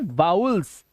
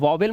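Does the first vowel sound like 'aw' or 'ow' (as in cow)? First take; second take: ow; aw. First: The first vowel sounds like 'ow' in cow. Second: The first vowel sounds like 'aw'. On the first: The speaker calls it right. "क्या बोलेंगे? वाउल्स" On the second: The speaker calls it wrong. "इन्हें वॉवेल मत बोलना"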